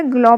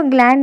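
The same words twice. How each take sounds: First: ग्लो with an open "aw" vowel ending; correct reading ग्लो. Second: ग्लैंड read out with an "and" ending; misreading as ग्लैंड. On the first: Teacher correcting the reading of the name, ग्लो ending on an open vowel. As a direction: say ग्लो with no n or d at the end. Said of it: "ग्लो पढ़ते हैं". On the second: Teacher showing how not to read the name, ग्लैंड ending in "and". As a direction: say ग्लैंड with the final n-d sounded. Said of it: "इसको ग्लैंड नहीं पढ़ते". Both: Shown as a demonstration.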